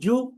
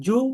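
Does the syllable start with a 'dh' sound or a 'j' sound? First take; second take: j; j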